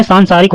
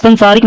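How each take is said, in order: First: सांसारिक as "saansaarik"; long-a सांसारिक. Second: संसारिक as "sansaarik"; short-a संसारिक. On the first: Teacher correcting, long opening in सांसारिक. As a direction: hold the first vowel of सांसारिक. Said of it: "सांसारिक होता है". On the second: Teacher showing the error, short opening in संसारिक. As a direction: keep the first vowel of संसारिक short. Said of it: "संसारिक नहीं". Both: Shown as a demonstration.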